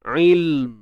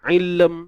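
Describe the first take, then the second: First: The L is held silent straight into the M. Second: A short vowel is released between L and M. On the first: The speaker calls it right. "kalau kita matikan, bunyinya macam mana?" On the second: The speaker calls it wrong. "dia jadi ilm. Bihi ilm"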